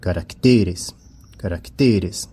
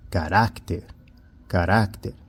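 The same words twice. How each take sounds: First: "caracteres" stressed on TE, the next-to-last syllable; stress shifted to TE. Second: "carácter" stressed on RÁC, the middle syllable. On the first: Teacher models the plural for students, "caracteres" stressed on TE. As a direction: lean on TE in "caracteres". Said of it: "quando nós passamos essa palavra para o plural". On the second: Teacher models the singular for students, "carácter" stressed on RÁC. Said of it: "ela perde o acento". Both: Shown as a demonstration.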